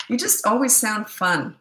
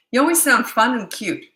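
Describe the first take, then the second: First: Said in the usual way. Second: Always hit higher and louder; stress on always. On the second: Shown as a demonstration. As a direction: lean hard on the word always.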